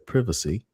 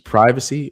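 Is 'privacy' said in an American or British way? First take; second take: British; American. First: It is said in a British way. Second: It is said in an American way.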